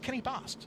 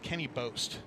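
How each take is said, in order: First: The surname does not rhyme with boast. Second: The surname rhymes with the word boast. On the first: The speaker calls it right. "but it's Kenny Bost" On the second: The speaker calls it wrong. "I always used to thought think his name was Kenny Boast, like Boast with the most"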